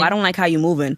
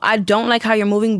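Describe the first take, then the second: First: It sounds scornful and dismissive. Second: It sounds warm and concerned. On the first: The speaker is hating on the person. The speaker calls it wrong. "you're not just hating on them and you coming from like, ew" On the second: The speaker cares and wants the person to do better. The speaker calls it right. "you really care about this person"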